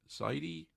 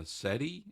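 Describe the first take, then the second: First: Sadie said as "Saydee", long a, higher and softer; second try at Sadie, the long "ay" sound; settling on the name. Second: Sadie tried as "Seddie", short e, rising at the end; first guess at the name Sadie, said "Seddie" with a rise; trying the name out. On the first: Greeting a viewer, settling on how Sadie is pronounced. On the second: Greeting a viewer, tentatively testing the name Sadie. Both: Real, not acted. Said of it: "I think that is how you pronounce it".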